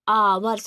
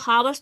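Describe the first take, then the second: First: The word begins with a vowel, no h. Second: The word begins with an h sound. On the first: The speaker calls it right. "आवर्स लिखा है मतलब आ आ रहा है" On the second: The speaker calls it wrong. "अब इसको हावर्स थोड़ी ना पढ़ेंगे"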